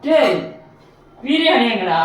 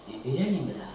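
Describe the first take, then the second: First: Loud, high angry yell for the biryani; angry shout. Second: Sad. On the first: Man yelling at an empty box, furious shout. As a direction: bellow it out, furious. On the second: Quiet despairing whine. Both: Acted.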